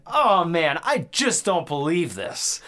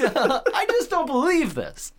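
First: Higher, louder, slow deadpan line reading; mock the wooden delivery, slow; slow hammed-up imitation of a bad actor; cheesy movie actor. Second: Much higher, slow, overacted line; slow squeaky parody of the same line; exaggerated cheesy actor. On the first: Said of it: "guy walks in and he's like". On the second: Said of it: "Like, he's".

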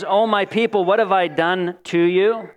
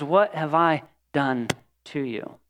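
First: A hint of a cracking, hurt plea; God pleading with his people, lightly cracking voice. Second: Quieter, slow, pained plea; abandoned lover asking Israel, soft and anguished. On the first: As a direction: let the voice just start to break on the question. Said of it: "hear his voice cracking as he says that". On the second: Acted. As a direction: ache through each word, slowly and softly. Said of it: "see the anguish in his eyes".

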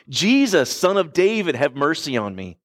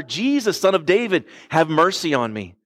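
First: Mock scream. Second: More insistent mock yell. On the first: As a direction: imitate a desperate cry for mercy, raised pitch falling away. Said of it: "screaming at the top of his lungs". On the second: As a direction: imitate a blind beggar calling out insistently. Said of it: "he starts yelling all the louder".

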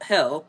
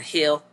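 First: "hill" with a broad Midwestern vowel; Midwestern accent. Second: Said in the usual way. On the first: Real, not acted. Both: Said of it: "there came my Midwestern accent".

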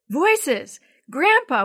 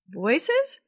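First: Higher, louder excited cry; exclaimed. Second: Puzzled rising question; wondering question. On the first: Boy telling grandpa rescuers are near, excited cry. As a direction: burst out with joy at the rescue. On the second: Boy first noticing the voices, puzzled. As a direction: ask it as the sound first reaches him. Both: A narrator's reading. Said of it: "Willie exclaimed".

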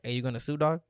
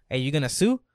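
First: Lightly voiced homie, toned down; easy, understated buddy question; Pedro's corrected voice. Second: Loud homie question, a light impression; lightly voiced buddy, pushed louder; Pedro's wrong voice. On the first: Friend asking him over a gas mishap, corrected homie voice. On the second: Friend asking him over a gas mishap, wrong homie voice. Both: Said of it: "he don't talk like that".

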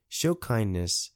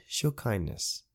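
First: "Show kindness" drawn out slowly, each word weighted; slow, stressed moral. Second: Said in the usual way. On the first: Shown as a demonstration. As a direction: press the advice home gently.

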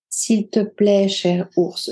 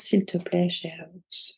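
First: A gentle, earnest plea; pleading. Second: Much softer, fading almost to a breath; calm soft plea. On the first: Woman begging the great bear to spare her, gentle plea. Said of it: "supplia-t-elle". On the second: Woman, now calm, quietly asking the bear for one hair. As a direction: ask the bear gently, no longer afraid. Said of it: "Et elle dit à l'ours". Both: A narrator's reading.

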